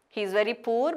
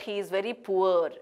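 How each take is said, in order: First: Poor with a single oo vowel; wrong pronunciation. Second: Poor gliding as "poo-er"; correct pronunciation. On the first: Teacher showing the mistake in a sentence, mispronounced. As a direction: say poor without the glide. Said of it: "It is not poor". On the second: Teacher correcting the sentence, correctly pronounced. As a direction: make poor rhyme with sure. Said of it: "but he is very poor". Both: Shown as a demonstration.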